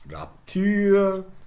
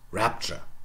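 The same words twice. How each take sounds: First: The stress is on the last syllable. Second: The stress is on the first syllable. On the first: This is the older form before the accent shift. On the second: This is the modern English form.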